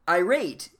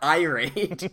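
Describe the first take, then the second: First: The stress is on the second syllable. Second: The stress is on the first syllable. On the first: The speaker calls it right. "You say the rate part" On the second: The speaker calls it wrong. "But it's not irate. It's not like an iPhone"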